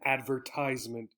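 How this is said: It is said with an American pronunciation. "typically in the U S"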